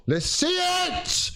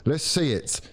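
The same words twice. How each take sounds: First: High, slow yell at the team; frustrated shout. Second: Said in the usual way. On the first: Real, not acted. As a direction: scream it out in frustration. Frustrated fan screams at team. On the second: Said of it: "demanding action".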